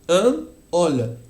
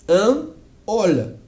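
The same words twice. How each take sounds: Both takes have the same delivery.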